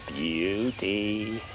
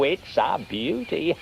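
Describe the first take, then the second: First: A slow, softer repeat of beauty, relishing it; savoured softly. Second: Said in the usual way. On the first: Acted. Snail relishing his idea to himself, slow and soft. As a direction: murmur it to yourself, slowly and softer.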